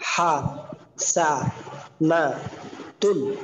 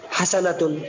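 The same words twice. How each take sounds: First: হা, সা, না, তুন as separate drawn-out syllables with pauses; broken-up teaching pronunciation, a gap after each of হা, সা, না, তুন. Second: Said in the usual way. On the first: Shown as a demonstration. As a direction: say হা, সা, না, তুন one slow piece at a time. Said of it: "একটা একটা করে উচ্চারণ বলা". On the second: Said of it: "reading".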